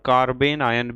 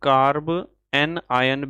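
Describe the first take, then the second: First: The word breaks after 'carben', then 'ion'. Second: The word breaks after 'carb', then 'anion'. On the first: "और कार्बेन आयन भी कह सकते हो" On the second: "आप इसे कार्ब एन आयन भी कह सकते हो"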